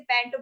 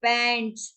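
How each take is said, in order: First: पैंट without the final s; the common mistake, पैंट with no s; wrong pronunciation. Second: पैंट्स with a clear final s; correct pronunciation. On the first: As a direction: drop the s and say only पैंट. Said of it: "wrong भी बोलते हैं लोग". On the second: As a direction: say पैंट्स ending in the s sound. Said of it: "इसका exact pronunciation होता है". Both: Shown as a demonstration.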